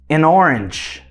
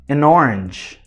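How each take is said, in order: First: An N sound links the article into orange. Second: The same.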